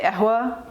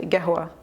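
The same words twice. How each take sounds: First: قهوة said "ahwa", no q; dropped qaf. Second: قهوة said "gehwa", hard g first; Saudi g for qaf. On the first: Offering another option, قهوة as "ahwa". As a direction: start قهوة on a vowel, ending in "a". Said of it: "or you could say". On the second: Explaining how Saudis say coffee, قهوة with a g. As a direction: turn the ق of قهوة into g. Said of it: "You pronounce the qaf as a g". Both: Shown as a demonstration.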